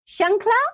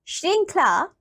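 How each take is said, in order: First: श्रृंखला without its "r"; mispronounced श्रृंखला. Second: श्रृंखला with a clear "shr" onset; correct श्रृंखला. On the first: Teacher showing children a wrong form, mispronounced. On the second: Teacher giving children the right form, correctly pronounced. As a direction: say श्रृंखला carefully as "shrinkhla". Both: Shown as a demonstration. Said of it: "नीचे कुछ अशुद्ध शब्द".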